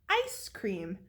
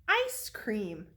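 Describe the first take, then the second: Both takes have the same delivery.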